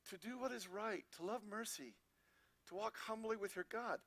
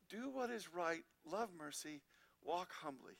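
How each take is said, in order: First: Each phrase stressed on "what", "love", "walk" with falling ends; emphasized wording. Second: Lower, softer repeat of the three commands; softer echo. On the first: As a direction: spell out the three commands one by one, leaning on the key word. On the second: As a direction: let the summary sink in, quieter and lower. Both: Shown as a demonstration. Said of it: "Listen to the wording".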